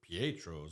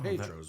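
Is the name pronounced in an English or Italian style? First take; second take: Italian; English. First: The name gets an Italian-style pronunciation. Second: The name gets a plain English pronunciation.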